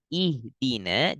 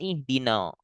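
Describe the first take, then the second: First: The final syllable sounds light and thin. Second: The final syllable sounds heavy, like no. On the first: The speaker calls it right. "Tipis dulu na" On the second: The speaker calls it wrong. "Jangan ihdina"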